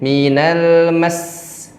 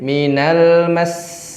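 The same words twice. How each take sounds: First: The voice is raised on mas. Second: The voice stays at a normal level on mas. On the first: The letter carries a doubling mark. "kalau ada tasydid minal mas mas, ditinggikan suaranya" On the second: The letter has no doubling mark. "kalau tidak ada tasydid"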